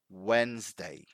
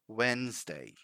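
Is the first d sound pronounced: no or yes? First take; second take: no; no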